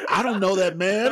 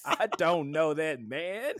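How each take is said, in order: First: Put-on high, quick kid's denial; quick mock little girl. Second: Put-on high, slow childish denial; slow mock little girl. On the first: Telling friends Pan's line, quick high kid voice. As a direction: toss it off like a cheeky girl. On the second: Repeating Pan's line to friends, slow childish mock voice. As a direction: drag it out like a stubborn kid. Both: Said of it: "And she said".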